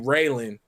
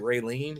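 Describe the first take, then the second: First: The name ends with a short 'lan' sound. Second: The name ends with a long 'leen' sound. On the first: This is the name as it was meant. "but it's really Raylan" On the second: This is how most people say the name. "people pronounce it Raylene, which is fine"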